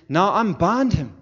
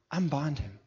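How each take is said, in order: First: High, drawn-out shouted order; big ringing shout, high and stretched; loud command. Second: Raised pitch at ordinary volume; firm, higher-pitched instruction; milder repeated command. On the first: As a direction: order the crowd at full force, slowly. Acting Jesus commanding the people. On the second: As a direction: give the order firmly without shouting. Command repeated, dropping back in force. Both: Acted.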